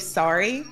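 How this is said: It is said with an American vowel. "in the States, we say sorry"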